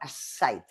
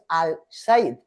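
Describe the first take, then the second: First: The article's L becomes a doubled S. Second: The article keeps a clear L sound. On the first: The speaker calls it right. "sino as-Said, o sea, repite la consonante" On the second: The speaker calls it wrong. "no es al Said"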